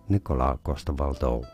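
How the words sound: The name is said with Danish pronunciation. "In Danish"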